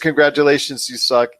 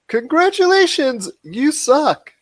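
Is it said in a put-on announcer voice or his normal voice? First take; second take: normal voice; announcer voice. First: It is said in his own normal voice. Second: It is said in the Pop Culture Cosmos voice.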